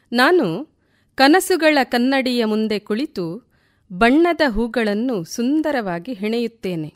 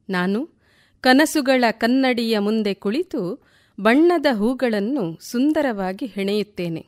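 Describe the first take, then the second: No difference in how they are said.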